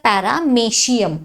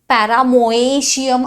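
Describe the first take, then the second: First: The middle is said as 'me', one vowel. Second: The middle is said as 'mo-e', two vowels. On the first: The speaker calls it right. "पॅरामेशियम उच्चार" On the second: The speaker calls it wrong. "पॅरामोएशियम असं नाही करायचा ह्याचा उच्चार"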